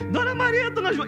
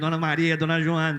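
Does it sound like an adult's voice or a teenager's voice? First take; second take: teenager; adult. First: It is said in a thin teenage voice. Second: It imitates the father's adult street-vendor call.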